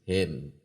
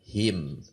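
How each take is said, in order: First: The vowel is a slanted, open 'eh' sound. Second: The vowel is a clear, close 'ee' sound. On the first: The speaker calls it wrong. "Tuh, miring" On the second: The speaker calls it right. "Coba perhatikan hem dengan him"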